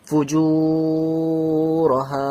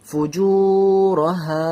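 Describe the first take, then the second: First: The long vowel is held far too long. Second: The long vowel is held for about a beat. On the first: The speaker calls it wrong. "এত বেশি টান দেবেন না" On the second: The speaker calls it right. "এতটা টান, অতি- অতিরিক্ত নয়"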